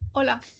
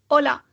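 First: It is said in a sexy voice. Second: It is said in a plain voice.

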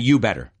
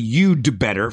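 First: No d sound is heard after you. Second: A d sound is heard after you. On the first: "We say you better" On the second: "technically you'd better from you had better"

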